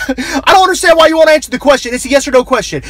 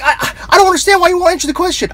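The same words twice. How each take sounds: First: Higher, louder, incredulous host; exasperated radio host. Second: Higher, fast, stammering frustration; exasperated radio host. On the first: Host repeating the demand at the evasive guest, incredulous. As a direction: laugh it out like a fed-up host. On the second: Host exasperated at a guest who won't answer, sputtering. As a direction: sputter like a host losing patience. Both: Retold or imitated.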